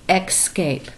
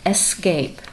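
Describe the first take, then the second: First: The word begins with an x sound. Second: The word begins with a plain s sound. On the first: The speaker calls it wrong. "for some reason we think there has to be a little X in there" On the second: The speaker calls it right. "It is escape"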